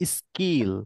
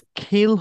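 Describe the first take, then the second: First: The k is said without a puff of air. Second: The k is said with a puff of air. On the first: The speaker calls it right. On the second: The speaker calls it wrong.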